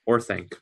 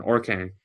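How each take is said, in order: First: Orthanc said as "OR-thank"; corrected Orthanc. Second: Orthanc said as "OR-kang"; slip on Orthanc. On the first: Correcting a slip on the tower's name, Orthanc said "OR-thank". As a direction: say Orthanc with a clear TH before the final "ank". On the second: Trying to recall the tower where Gandalf is held, Orthanc misspoken as "OR-kang". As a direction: stumble on Orthanc, a K sound replacing the TH. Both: Real, not acted.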